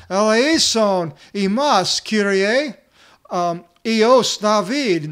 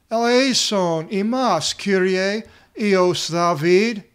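First: Slow, very loud, high desperate plea; crying out even louder. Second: Slow, loud, high pleading cry; crying out for mercy. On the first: Blind men crying louder despite the crowd, slow loud plea. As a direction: shout it over everyone, stretching each word. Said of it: "all the greater they cried out". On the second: Blind men begging Jesus for mercy, a loud slow cry. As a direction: call out to Jesus across the crowd, drawn out. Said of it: "They're yelling out". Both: Retold or imitated.

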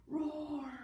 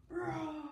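First: Big lion roar for the class. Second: Louder, higher lion roar. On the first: Teacher roaring to show the kids. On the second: Teacher leading the class in a roar. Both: Shown as a demonstration. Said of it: "Everybody go, roar!".

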